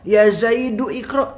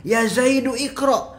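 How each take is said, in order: No difference in how they are said.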